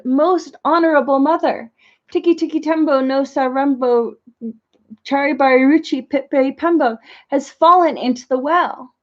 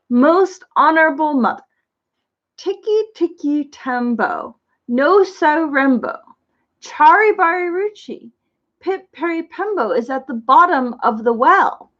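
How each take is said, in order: First: Said in the usual way. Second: Slow, careful, each name syllable laid out; very slowly. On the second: Acted. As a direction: take the long name slowly so it comes out right. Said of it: "said very slowly".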